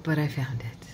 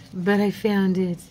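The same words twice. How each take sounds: First: Breathy whisper of relief. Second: Said in the usual way. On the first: Real, not acted. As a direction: whisper it to yourself.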